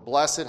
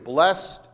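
First: The word is said as two syllables. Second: The word is said as one syllable.

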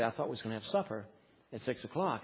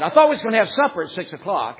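First: The sentence is spoken very softly. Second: The sentence is shouted loudly. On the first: It might come across as acceptable. "Or I could say it very, very softly" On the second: It comes across as too harsh to accept. "I could shout it"

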